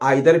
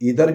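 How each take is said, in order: First: The first vowel sounds like 'eye'. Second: The first vowel sounds like 'ee'. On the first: "इसको हम आइदर भी पढ़ सकते हैं" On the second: "इधर भी बोल सकते हैं"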